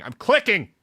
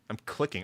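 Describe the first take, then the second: First: Higher, louder I'm clicking; louder insisting. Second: Said in the usual way. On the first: Real, not acted. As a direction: snap back I'm clicking.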